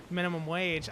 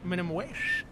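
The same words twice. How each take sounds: First: Said in the usual way. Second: Whistling squeak through the teeth on wage; teeth whistle. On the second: Real, not acted. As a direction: wage ends in a sudden high whistle. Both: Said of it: "my teeth just whistled".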